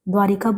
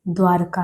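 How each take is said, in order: First: An 'i' vowel comes before the final 'ka'. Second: No 'i' vowel comes before the final 'ka'. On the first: The speaker calls it wrong. "द्वारिका है नहीं सही" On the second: The speaker calls it right. "सही क्या है? द्वारका है"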